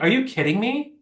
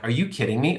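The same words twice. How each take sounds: First: Mock outraged disbelief; incredulous. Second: Said in the usual way. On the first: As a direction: let the disbelief shoot up high. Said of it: "I was like". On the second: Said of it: "I'm like".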